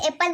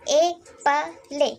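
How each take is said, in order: First: The word ends in a plain l sound. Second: The word ends with an added e vowel. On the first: The speaker calls it wrong. "ये एप्पल नहीं लिखा है" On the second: The speaker calls it right. "ये लिखा है ए पले"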